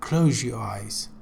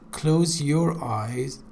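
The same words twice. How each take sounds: First: The z merges with 'your' into zh. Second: A plain z sound comes before 'your'. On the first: The speaker calls it right. "when z is followed by ye, z changes to je" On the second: The speaker calls it wrong. "you said close your eyes"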